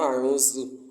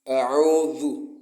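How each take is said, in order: First: The middle consonant is a buzzing 'z' sound. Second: The middle consonant is a soft 'dh' sound. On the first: The speaker calls it wrong. "It's not A'udhu. And that's that's misplacing Dhal for that" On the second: The speaker calls it right. "it is A'udhu, Dhal"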